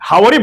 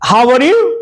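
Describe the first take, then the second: First: It is said in a Japanese accent, run together. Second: It is said in a plain, standard English accent.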